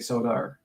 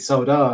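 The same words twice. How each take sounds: First: The word ends with an added R sound. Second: The word ends in a plain vowel, no R. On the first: "I do put the R at the end" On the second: "I don't say soda"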